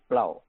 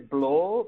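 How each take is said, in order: First: The vowel sounds like an 'ow' diphthong. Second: The vowel sounds like a plain 'o'. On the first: This is how the name really sounds. The speaker calls it right. "pero es Blau" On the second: This is how someone else said the name. The speaker calls it wrong. "O como tú dijiste"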